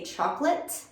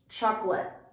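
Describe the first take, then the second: First: The final T is fully released. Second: The final T is stopped, not released. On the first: The speaker calls it wrong. "A native speaker won't often say chocolate. That doesn't feel as natural" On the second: The speaker calls it right. "we don't fully let that T sound come out"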